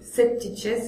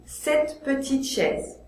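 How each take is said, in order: First: The e in petite is dropped entirely. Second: The e in petite is pronounced as a vowel. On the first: The speaker calls it wrong. "c'est trop difficile" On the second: The speaker calls it right. "je dois dire cette petite chaise, puisque là il y a trois consonnes"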